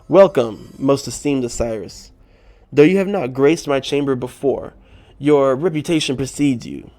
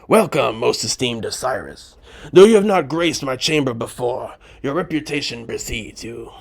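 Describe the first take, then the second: First: It is read in the narrator's normal voice. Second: It is read in a put-on Spider voice.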